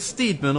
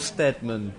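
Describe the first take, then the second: First: The first vowel is a long 'ee' sound. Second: The first vowel is a short 'e' sound. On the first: "Steed as in weed" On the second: "Stead as in"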